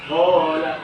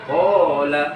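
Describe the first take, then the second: Both takes have the same delivery.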